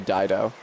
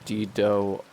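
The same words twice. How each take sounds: First: The name is given its usual English pronunciation. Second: The name is given its Latin pronunciation. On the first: "in English they usually say" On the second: "Latin pronunciation"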